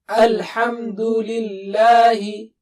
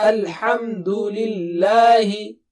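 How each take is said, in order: The two takes are said the same way.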